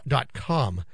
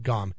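First: "dot com" slowed right down; low, deliberate "dot com" with a crisp k; careful correction. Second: "gom" with a hard g for "com"; "gom", a g in place of the k; mispronounced "gom". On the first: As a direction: spell out "dot com" slowly, clearly. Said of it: "I was speaking that too fast". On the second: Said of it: "not gom". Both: Shown as a demonstration.

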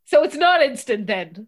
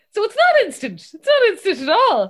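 First: Louder, challenging question with a final rise; retold annoyance. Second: High, loud mock outrage; retold anger. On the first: Dad querying Instagram with daughter, mildly annoyed. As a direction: imitate a dad getting put out. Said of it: "And he was really so angry". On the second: Dad feeling misled about Instagram, loudly indignant. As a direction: protest it loudly, imitating an angry dad. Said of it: "so angry".

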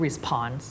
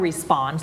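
First: "response" with air bursting after the P; over-aspirate the P in "response"; wrong aspirated P. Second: "response" with a tight P, no puff; unaspirated P. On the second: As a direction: say "response" with the P softened towards B. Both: Shown as a demonstration. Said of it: "เราไม่พูด response".

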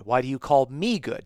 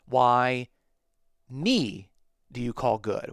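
First: Said in the usual way. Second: Greek word order, with a pause setting off "me" before "do you call good"; emphasis on me. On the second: Shown as a demonstration. Teacher showing the Greek word order, stressing "me". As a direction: lean on "me", set apart by short pauses on both sides. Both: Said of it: "the word order places the emphasis on the me".

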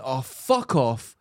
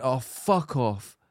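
First: Slow, drawn-out and fed up; weary fuck off. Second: Slow, drawn-out, tired dismissal; exhausted fuck off. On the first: Retold or imitated. Telling a friend how she snapped at a rude customer, slow and weary. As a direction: let it sag out of you, exhausted. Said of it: "I just went". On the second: Shown as a demonstration. Showing her friend exactly how she said it, slow and exhausted. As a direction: sigh it out like you've had enough. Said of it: "like that".

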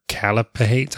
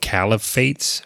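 First: "calipates" with a p sound replacing the f; hesitant second stab, "calipates"; unsure pronunciation. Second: "caliphates" with an f sound, tentatively; hesitant stab at saying "caliphates"; unsure pronunciation. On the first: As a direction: try "calipates" with "pates" at the end. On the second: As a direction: try "caliphates" with "fates" at the end. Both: Real, not acted. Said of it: "I don't know how to say it".

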